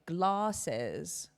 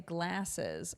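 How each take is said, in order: First: It is said with a British vowel. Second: It is said with an American vowel. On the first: This is how her friends say it. "my friends say glasses" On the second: This is how she and her mother say it. "but I say glasses"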